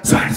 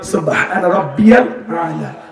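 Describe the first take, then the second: First: It is whispered and mumbled. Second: It is said clearly aloud.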